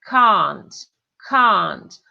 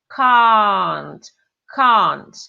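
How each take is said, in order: Both takes have the same delivery.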